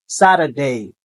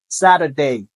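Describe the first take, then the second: Both takes have the same delivery.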